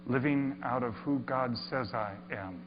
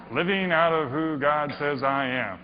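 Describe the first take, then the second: First: Softer, hushed reading of the sign; hushed first reading of the sign; reverent read. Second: Plain, offhand reread after a laugh; shrugging second reading; dismissive reread. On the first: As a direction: read it quietly, taking it in. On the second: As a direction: toss it off as mere words. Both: Shown as a demonstration. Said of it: "Whatever. There's some words".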